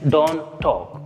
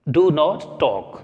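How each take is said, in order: First: Do not is contracted to one syllable. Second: Do not is said as two full words. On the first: The speaker calls it right. "डू नॉट के बजाय हम बोले डोंट, contracted form" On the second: The speaker calls it wrong. "ये बोलने में थोड़ा सा अजीब सा लग रहा है"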